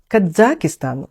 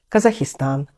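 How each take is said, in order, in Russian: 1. Произносится с итальянским акцентом. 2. Произносится с испанским акцентом. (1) "итальянцы говорят Казахстан, ударение даже ставят на второй слог" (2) "испанцы говорят Казахстан"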